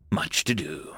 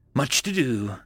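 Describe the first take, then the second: First: Soft whispered echo. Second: Said in the usual way. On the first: A narrator's reading. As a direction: whisper it to yourself. Repeated musing, fading to whisper.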